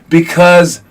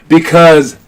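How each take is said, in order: No difference in how they are said.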